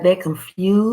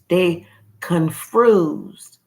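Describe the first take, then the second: First: It is said casually, without special emphasis. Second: It is said emphatically, really meaning it.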